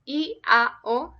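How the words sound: The vowels are pronounced the Latin way. The speaker calls it right. "pronounced I A O because it's Latin"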